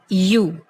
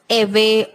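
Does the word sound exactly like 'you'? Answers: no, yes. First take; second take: yes; no. First: The word is said exactly like 'you'. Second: The word is not said like 'you'. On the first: The speaker calls it right. "it is only and only you" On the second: The speaker calls it wrong. "It is not ewe"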